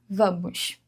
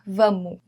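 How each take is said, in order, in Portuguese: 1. O S final é claramente pronunciado. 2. O S final é totalmente omitido.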